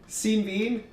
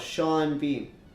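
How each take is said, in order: First: The first name sounds like 'seen'. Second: The first name sounds like 'shawn'. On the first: The speaker calls it wrong. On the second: The speaker calls it right.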